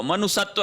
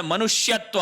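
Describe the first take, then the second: First: मनुष्यत्व without the y, "manu-satva"; wrong pronunciation. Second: मनुष्यत्व with "shya", "manu-shyatva"; correct pronunciation. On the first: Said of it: "मनुष्यत्व नहीं होता है". (मनुष्यत्व को "मनुसत्व" बोलें) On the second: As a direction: sound the sh-y in मनुष्यत्व. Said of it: "मनुष्यत्व होता है". (मनुष्यत्व में "ष्य" साफ़ बोलें) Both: Shown as a demonstration.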